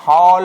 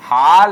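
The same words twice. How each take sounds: First: हॉल with a drawn-out rounded "aw"; correct rounded vowel. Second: हाल with a drawn-out open "aa"; wrong open vowel. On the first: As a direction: contrast हॉल with rounded lips. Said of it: "ये सही है". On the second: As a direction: contrast हाल as an unrounded "haal". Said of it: "ये गलत है". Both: Shown as a demonstration.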